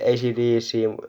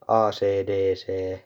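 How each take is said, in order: First: The letters are said with English letter names. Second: The letters are said with Finnish letter names. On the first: This is how it should properly be said. "You should say" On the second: This is how Finnish people say it. "but we say"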